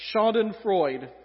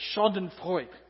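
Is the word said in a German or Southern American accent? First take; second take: Southern American; German. First: The word is said in a Southern American accent. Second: The word is said with a put-on German accent. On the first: "That doesn't sound right in Southern English" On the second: "I don't know why I think I have to do an accent when I do that"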